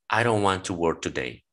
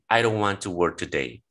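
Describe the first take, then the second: Both takes have the same delivery.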